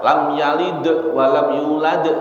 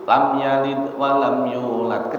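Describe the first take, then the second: First: The consonant release has a strong, exaggerated bounce. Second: The consonant release has only a slight bounce. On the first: The speaker calls it wrong. "jangan enggak usah" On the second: The speaker calls it right. "Kecil aja"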